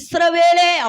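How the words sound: It is said in a bold, majestic voice. The speaker calls it right. "அப்படி சொல்லுங்க"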